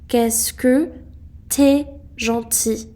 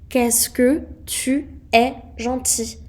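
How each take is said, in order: First: The words 'tu es' are contracted to 't'es'. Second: The words 'tu es' are said in full.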